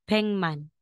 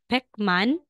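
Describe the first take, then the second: First: The first syllable ends in an ng sound. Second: The first syllable ends in a k sound. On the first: The speaker calls it right. "magiging N G po yung bigkas natin" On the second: The speaker calls it wrong. "instead na sasabihin mong Pekman"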